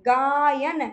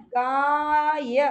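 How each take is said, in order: First: Said in the usual way. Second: गाय stretched very slowly so आय is heard; drawn-out sound demo. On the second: Shown as a demonstration. Teacher stretching गाय so students hear आय, very slow. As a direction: hold गाय long, letting आय ring out. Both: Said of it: "आय की हमें सुनाई देती है".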